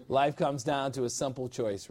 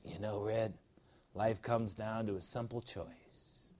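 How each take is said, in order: First: Said in the usual way. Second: Mock Japanese accent, lower, softer and slow; a playful put-on Japanese accent. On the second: Preacher quoting Andy from Shawshank in a mock Japanese accent. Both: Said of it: "That's my Japanese accent".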